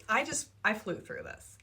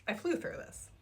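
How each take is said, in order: First: Said in the usual way. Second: Breathy whisper, a little higher; whispered repeat. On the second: Real, not acted. Reviewer echoing her own words, whispered. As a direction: whisper it to yourself in awe.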